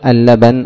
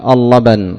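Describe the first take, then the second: First: The L sound is light and thin. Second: The L sound is heavy and full. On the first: The speaker calls it right. "إنما تقول اللبن" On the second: The speaker calls it wrong. "ولا تقول اللبن"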